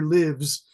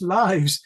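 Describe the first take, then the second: First: It is pronounced like the verb form. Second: It is pronounced like the noun form. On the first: The speaker calls it wrong. "They always pronounce it as the verb, like he lives in a big house" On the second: The speaker calls it right. "oh, no, no, it's lives"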